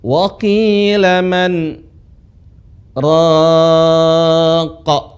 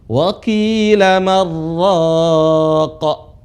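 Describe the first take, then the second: First: A brief silent stop follows 'man', its n kept. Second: The n merges into the r without any stop. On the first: The speaker calls it right. "di situ ada berhenti sejenak tanpa napas" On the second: The speaker calls it wrong. "nun lebur"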